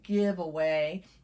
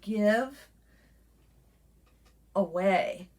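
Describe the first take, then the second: First: It is said as one joined word. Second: It is split into two separate words. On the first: The speaker calls it wrong. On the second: The speaker calls it right.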